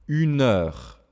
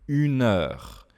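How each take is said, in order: The two takes are said the same way.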